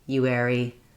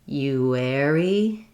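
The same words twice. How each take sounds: First: The sounds are said quickly and compactly. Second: The sounds are said slowly and drawn out. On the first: "then speeding up" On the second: "try going slow"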